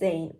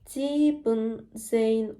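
First: It is said with two syllables, shortened to 'sieb'. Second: It is said with three syllables, keeping 'sieben'. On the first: The speaker calls it right. "17 oluyor" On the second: The speaker calls it wrong. "17 olmuyor"

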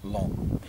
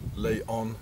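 First: The O vowel is silent in the name. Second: The O vowel is pronounced in the name. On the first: The speaker calls it right. "They don't pronounce the O" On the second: The speaker calls it wrong. "It is not Laon"

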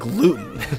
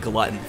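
First: The first vowel is a long 'oo' sound. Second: The first vowel is a short 'uh' sound. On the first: The speaker calls it right. "you mean gluten" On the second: The speaker calls it wrong. "I always used to pronounce it glutton"

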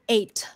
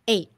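First: The final T is fully released. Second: The final T is stopped, not released. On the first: The speaker calls it wrong. "Don't say 8" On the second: The speaker calls it right. "Now I want you to practice the stopped T"

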